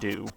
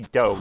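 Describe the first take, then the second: First: The word does not sound like Nintendo's ending. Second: The word sounds like the end of Nintendo. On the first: The speaker calls it wrong. "not do" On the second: The speaker calls it right. "it's meant to be like Nintendo, right? So it must be do"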